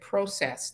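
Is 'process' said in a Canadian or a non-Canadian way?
Canadian. The word is said with a Canadian pronunciation. "now you can hear I'm Canadian. I said process"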